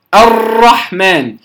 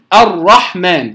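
First: The r is rolled with many repeated taps. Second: The r is made with a single tap. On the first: The speaker calls it wrong. "فيبالغ في التكرير" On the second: The speaker calls it right. "المقصود بالتكرير أن يكون مرة واحدة"

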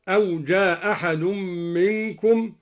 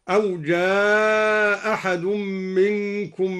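First: The long vowel is held briefly. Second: The long vowel is drawn out. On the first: "قصر" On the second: "ومد"

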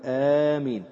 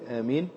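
First: The first vowel is drawn out long. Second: The first vowel is kept short. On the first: "الأولى أن تقول آمين، تمدها هكذا" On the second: "ويجوز فيها القصر، تقول آمين"

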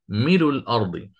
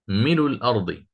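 The two takes are said the same way.

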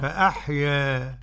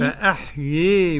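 First: The final vowel leans slightly toward i. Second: The final vowel leans strongly toward i. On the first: "تقليل" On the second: "إمالة كبرى"

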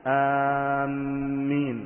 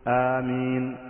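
First: The first vowel is long and the m doubled. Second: The first vowel is short and the m single. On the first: We are heading toward you. "الرابعة بتشديد الميم مع المد" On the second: O God, answer. "والثانية بالقصر"

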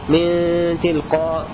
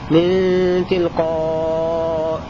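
First: The final long vowel is held briefly. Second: The final long vowel is held moderately long. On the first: "هذا قصر" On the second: "توسط"

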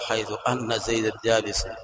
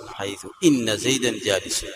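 First: The particle begins with an a vowel. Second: The particle begins with an i vowel. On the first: The speaker calls it wrong. "ولا تقول" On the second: The speaker calls it right. "فتكسر همزة إن بعد حيث"

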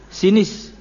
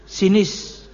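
No difference in how they are said.

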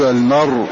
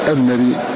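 First: The final consonant ends with no vowel at all. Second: The final consonant ends with a faint, hushed i-vowel. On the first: "وسكناه لأجل وقفه، فنقول المر" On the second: "فإذا وقف عليها حركه بالكسر بصوت خفي"

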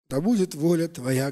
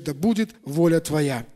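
First: It is said as a bitter, resigned sigh. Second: It is said as a confident, triumphant exclamation. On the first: The speaker is reluctantly resigning to fate. The speaker calls it wrong. "Похоже, это порой на горький вздох" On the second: The speaker has made the right choice victoriously. The speaker calls it right. "это восклицание победителя"

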